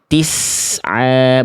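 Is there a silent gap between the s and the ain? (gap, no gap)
no gap. The s flows straight into the next sound. The speaker calls it right. "betul-betul dialirkan"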